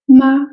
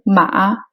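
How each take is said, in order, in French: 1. La syllabe se dit sur un ton haut. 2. La syllabe se dit sur un ton bas. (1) "c'est le ton haut" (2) "c'est le ton bas"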